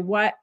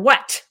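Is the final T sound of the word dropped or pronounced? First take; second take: dropped; pronounced. First: The final T sound is left off. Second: The final T sound is clearly pronounced. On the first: "without the T sound at the end" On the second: "with the T sound"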